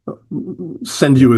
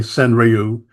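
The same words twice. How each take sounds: First: The word is pronounced closer to the Japanese way. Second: The word is pronounced in an anglicized way. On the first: This follows the original Japanese pronunciation. "Senryu is the you know the sort of Japanese pronunciation" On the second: This is how many English speakers say it. "a lot of people in English in the haiku community say Senryu"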